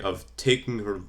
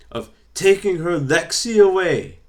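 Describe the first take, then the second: First: Said in the usual way. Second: Much higher, louder Scottish accent, playful imitation. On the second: Imitating Nikki Cross accusing Bray, loud high Scottish accent. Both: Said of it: "let's see if we can do this Scottish accent".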